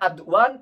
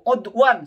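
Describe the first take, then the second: First: The word begins with an 'a' vowel. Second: The word begins with an 'o' vowel. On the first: The speaker calls it right. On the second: The speaker calls it wrong. "Saya salah baca apalagi itu"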